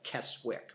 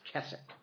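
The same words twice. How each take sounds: First: The w in the middle is pronounced. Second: The w in the middle is silent. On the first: The speaker calls it wrong. "it looks like Keswick" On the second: The speaker calls it right. "They don't say the W like we do"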